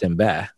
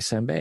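First: The word ends with a 'bad' sound. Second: The word ends with a 'bei' sound. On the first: This is how the family came to say it. The speaker calls it wrong. "we now pronounce it Sinbad" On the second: This is the standard Japanese form. The speaker calls it right. "written in English, just Senbei"

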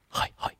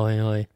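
First: It is whispered breathily. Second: It is shouted loudly.

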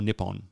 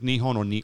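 First: The middle consonant is a P sound. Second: The middle consonant is an H sound. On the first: "it gets pronounced with a P sometimes" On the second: "sometimes it's an H"

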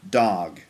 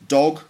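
First: The vowel is an open unrounded 'ah' sound. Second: The vowel is a short rounded 'o' sound. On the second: "So British English would be like dog"

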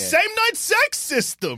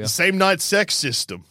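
First: It is said with excitement. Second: It is read flatly, without excitement.

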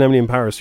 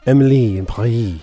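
First: Paris is said with an English pronunciation. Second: Paris is said with a French pronunciation. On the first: The speaker calls it wrong. "If you're all watching Emily in Paris, you're wrong" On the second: The speaker calls it right. "supposed to be pronounced with a French accent, so Emily and Paris rhyme"

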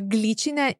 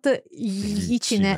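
First: It begins with a hard g followed by l. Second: It begins with a soft palatal 'ly' sound. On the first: The speaker calls it right. "So glicine" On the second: The speaker calls it wrong. "it's not glicine"

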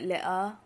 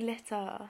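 First: The middle t sound is swallowed, not enunciated. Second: The middle t sound is clearly enunciated. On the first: The speaker calls it wrong. "when people can't, like, speak properly, when they go, like" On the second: The speaker calls it right. "you can enunciate your words"

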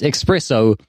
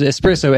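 First: The word begins with an 'ex' sound. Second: The word begins with a plain 'ess' sound. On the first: The speaker calls it wrong. "as espresso" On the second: The speaker calls it right. "mispronounces espresso"

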